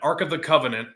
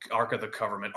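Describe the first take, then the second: First: Said in the usual way. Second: "Covenant" slipped into "Covernment", lower and softer; mispronounced Covenant. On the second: Real, not acted. Speaker tripping over the movie relic's name, "Covenant" garbled as "Covernment". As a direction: say "Covenant" with an r and m, like "government". Slip, then corrects himself.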